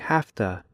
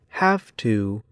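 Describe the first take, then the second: First: The words run together quickly, like hafta. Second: Both words are said slowly and fully. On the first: "but in fast speech" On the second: "In slow speech"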